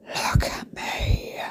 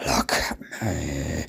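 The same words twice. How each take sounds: First: Slow, breathy stage whisper; whispered self-admiration. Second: Slow, soft, deep croak to the mirror; low creaky self-admiration. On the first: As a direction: whisper it slowly to your reflection. Admiring herself in the mirror. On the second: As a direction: drop very low, drawn out. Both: Retold or imitated.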